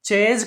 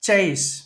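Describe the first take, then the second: First: The word ends with a buzzing z sound. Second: The word ends with a hissing s sound. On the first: The speaker calls it wrong. "చేజ్ కాదండి" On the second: The speaker calls it right. "ఇక్కడ చివరిన ending sound సా పలకాలండి"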